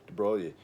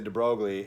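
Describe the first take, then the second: First: The name is pronounced the French way. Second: The name is pronounced the American way. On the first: "my French pronunciation of his French name" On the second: "Americans would speak it that way"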